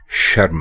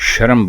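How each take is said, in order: First: The r and m are said together, no vowel. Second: A vowel is inserted between r and m. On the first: The speaker calls it right. "दुरुस्त लफ्ज शर्म नहीं है, शर्म है" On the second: The speaker calls it wrong. "वो शीन के ऊपर भी जबर लगा देते हैं और रे के ऊपर भी जबर लगा देते हैं"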